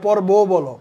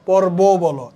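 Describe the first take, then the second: The two takes are said the same way.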